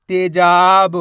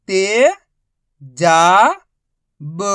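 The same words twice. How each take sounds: First: Said in the usual way. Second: ते-जा-ब slow and separated; syllable by syllable. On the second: Shown as a demonstration. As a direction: pull तेजाब apart syllable by syllable. Teacher spells syllables slowly.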